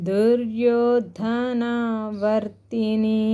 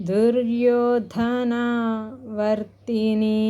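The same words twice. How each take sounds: No difference in how they are said.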